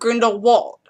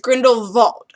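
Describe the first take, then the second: First: The last part starts with a W sound. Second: The last part starts with a V sound. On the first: The speaker calls it wrong. "not Grindelwald" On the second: The speaker calls it right. "the W is pronounced as a V, so it's Grindelwald"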